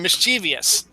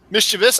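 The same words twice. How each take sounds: First: "mischievous" as mis-CHEE-vee-us; the favored "mischievous" with a vee-us ending; four-syllable mischievous. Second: "mischievous" as MIS-chuh-vus, pitched high; careful "mischievous" after tripping on it; three-syllable mischievous. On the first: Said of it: "I like saying mischievous". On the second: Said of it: "I don't like to say". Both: Shown as a demonstration.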